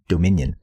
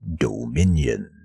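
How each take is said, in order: First: The word is said in a plain, ordinary way. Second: The word is said in a dark, menacing way. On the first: The speaker calls it wrong. "rather than Dominion" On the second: The speaker calls it right. "I gotta say Dominion. It sounds more menacing"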